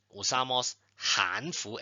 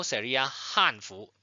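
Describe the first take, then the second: First: Hanfu with a rising second tone on han. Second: Hanfu with a sharp falling fourth tone on han. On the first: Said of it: "es el segundo tono". (Hanfu con segundo tono ascendente en han) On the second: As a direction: drop han sharply in Hanfu, the Chinese word. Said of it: "Si es el cuarto tono". (Hanfu con cuarto tono descendente en han) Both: Shown as a demonstration.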